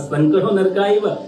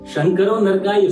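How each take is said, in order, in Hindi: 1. पहला शब्द 's' ध्वनि से शुरू होता है। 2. पहला शब्द 'sh' ध्वनि से शुरू होता है। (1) "एस वाला सा" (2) "शंकर जी नरक को गए"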